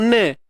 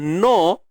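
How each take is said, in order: First: The n is followed by a tilted e-like vowel. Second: The n is followed by a thick o-like vowel. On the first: "tak mau ne" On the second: "kalau tebal no, no Allah itu pun tak tepat"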